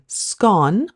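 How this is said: The vowel rhymes with gone, northern style.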